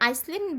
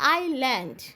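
First: An s sound is pronounced before the l. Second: No s sound is pronounced before the l. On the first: The speaker calls it wrong. "আমরা এখানে আইসল্যান্ড বলবো না" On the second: The speaker calls it right. "আমরা বলবো হচ্ছে আইল্যান্ড"

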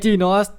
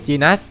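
First: The last syllable is said with an 'o' sound. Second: The last syllable is said with a short 'a' sound. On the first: The speaker calls it right. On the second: The speaker calls it wrong.

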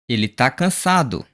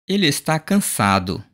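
First: The verb is shortened to tá. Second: The verb is said in full as está.

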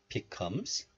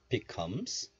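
The two takes are said the same way.

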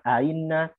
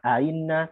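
First: The second glottal stop is softened and eased. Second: The same.

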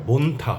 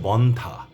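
First: The first vowel is a closed 'o' sound. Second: The first vowel is an open 'aw' sound. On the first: The speaker calls it wrong. "এটা বন্থা হবে না" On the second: The speaker calls it right. "এটা হচ্ছে বন্ধা"

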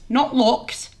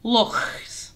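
First: The word ends with a hard k sound. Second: The word ends with a throaty ch sound. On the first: The speaker calls it wrong. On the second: The speaker calls it right.

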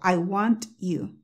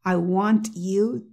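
First: Said slowly with the T sharply released. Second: The same.

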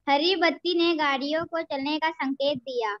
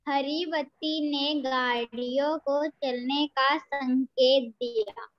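First: The sentence is read quickly. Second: The sentence is read slowly.

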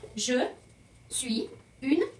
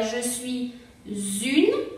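First: Suis and une are said without a linking z. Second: A z sound links suis to une.

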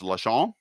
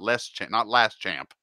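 First: It sounds like 'la-shamp', with no t sound. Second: It sounds like the English words 'last champ'. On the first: The speaker calls it right. "It's Lachamp" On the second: The speaker calls it wrong. "Not last champ"

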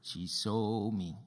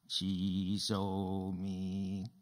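First: The stress is on the word saw. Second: No word is stressed; the delivery is flat. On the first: "Did she see you or hear you?" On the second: "Say, she saw me with no expression"

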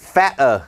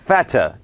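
First: The middle t is dropped from the word. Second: The middle t is a clear crisp t sound. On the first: "ตัด, t, ทิ้ง" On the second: "อังกฤษแบบ, BBC, นะครับออกข่าวนะครับมี, t, ชัด"

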